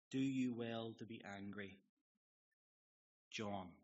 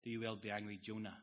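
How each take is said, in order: First: "John" said in place of Jonah, one syllable; misread name. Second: "Jonah" said fully in two syllables; corrected name. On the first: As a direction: read "Do you well to be angry, John?" with the name clipped to "John". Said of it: "it says". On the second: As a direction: read the line again ending on a full "Jonah". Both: Shown as a demonstration.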